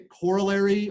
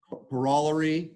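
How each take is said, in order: First: It is said with an ordinary American pronunciation. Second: It is said with an imitated British pronunciation.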